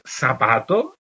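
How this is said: The first consonant sounds like an s. This is the Canarian way of saying it. "tenemos seseo"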